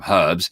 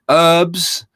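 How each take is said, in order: First: The first h sound is clearly pronounced. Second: The first h sound is left silent. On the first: "I'd call them herbs" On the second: "as Americans would call them"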